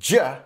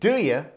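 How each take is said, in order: First: The two words blend into one short syllable. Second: Both words are pronounced fully and separately.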